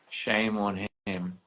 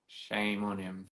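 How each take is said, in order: First: Slow mock shame on him, at normal level; mock scolding. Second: Slow, quieter mock shame on him; mock scolding. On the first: Teasing a friend who declined the live, mock scolding. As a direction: tease the friend slowly. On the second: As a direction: drag out shame on him as a tease.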